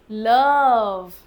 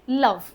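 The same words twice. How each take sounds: First: लव stretched out, vowel held long; wrongly lengthened vowel. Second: लव said short, vowel not held. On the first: Teacher shows students how not to say it, overlong vowel. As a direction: draw out लव in one long glide. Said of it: "लेकिन ऐसा नहीं बोलते अपन". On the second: Teacher shows students the usual form, short vowel. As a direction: keep लव brief. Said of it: "अपन छोटा बोलते हैं". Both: Shown as a demonstration.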